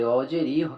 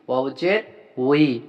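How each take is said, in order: First: The final syllable is a bare i vowel. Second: The final syllable starts with a w sound. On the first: The speaker calls it wrong. "অনেকে ভুল করে ওয়াউজের ই পরে, ওয়াউজের ই কিন্তু হবে না" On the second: The speaker calls it right. "ওয়াউজের হবে উই"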